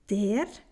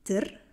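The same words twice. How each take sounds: First: The article is said in its full form. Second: The article is said in a shortened form. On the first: This is the Standard German form. "Der wird zu der" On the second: This is the Swiss German form. "wird zu der"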